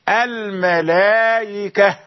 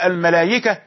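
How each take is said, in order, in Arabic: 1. الهمزة مسهَّلة بين الهمزة والياء. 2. تُبدَّل الهمزة بياءٍ خالصة. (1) "تسهيل، تسهيل من جنس الحركة السابقة، ليست ياء خالصة" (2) "لا تقل الملائكة بياء خالصة"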